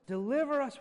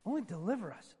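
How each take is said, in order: First: Pleading Deliver, punched; stress on Deliver. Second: Said in the usual way. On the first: Shown as a demonstration. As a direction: Deliver hit louder and higher. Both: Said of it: "notice right in the middle".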